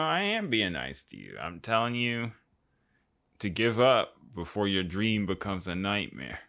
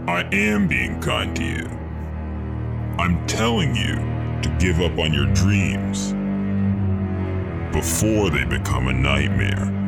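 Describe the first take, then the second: First: It is said in a casual, ordinary tone. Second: It is said in a menacing, villainous tone.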